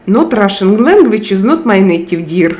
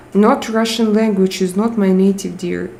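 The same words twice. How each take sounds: First: A light mock Russian accent; imagine a Russian reading the message aloud; lightly hammed Russian accent. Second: Said in the usual way. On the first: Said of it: "I read you with Russian accent in my head".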